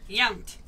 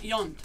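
First: The name rhymes with count. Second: The name does not rhyme with count. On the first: The speaker calls it right. "Like count" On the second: The speaker calls it wrong. "Not Yount"

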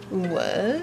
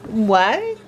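First: It is said in an annoyed, dismissive way. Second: It is said in a plain, neutral way. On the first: The speaker calls it right. "Like, shut up, Karen" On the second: The speaker calls it wrong. "There's a difference"

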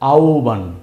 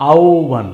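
The two takes are said the same way.

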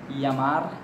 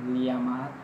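Both takes have the same delivery.

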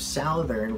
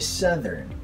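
First: The first syllable sounds like 'sow'. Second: The first syllable sounds like 'suh'. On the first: The speaker calls it wrong. "Instead of southern" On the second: The speaker calls it right. "we say southern. Suh and thern"

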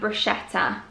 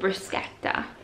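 First: The middle consonant sounds like sh. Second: The middle consonant sounds like sk. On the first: The speaker calls it wrong. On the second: The speaker calls it right.

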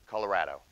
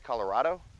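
First: The 'ra' has a flat 'a' vowel, as in 'rad'. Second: The 'ra' has an open 'ah' vowel, as in 'father'. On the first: This is how most local people say it. "most local people say Colorado" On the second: This is a common outside pronunciation. "It's not wrong to say Colorado"

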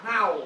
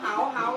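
First: The word is said with a low tone. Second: The word is said with a rising tone. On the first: It means to bark. "ไม้เอกลงไปกลายเป็นคำว่าเห่า" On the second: It means lice. "มีเหาอยู่บนหัว"

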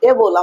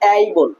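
First: The first vowel is a pure 'e' sound. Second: The first vowel is an 'ei' glide. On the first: The speaker calls it wrong. "উচ্চারণ এ বল আমরা বলতাম" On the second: The speaker calls it right. "আসলে এটা হবে এই বল"

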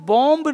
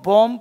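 First: The final b sound is pronounced. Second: The final b sound is silent. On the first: The speaker calls it wrong. "इसको हम बॉम्ब नहीं पढ़ते हैं" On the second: The speaker calls it right. "इसको हम बॉम्ब पढ़ते हैं"

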